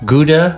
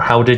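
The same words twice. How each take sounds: First: Gouda is said with an English pronunciation. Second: Gouda is said with a Dutch pronunciation.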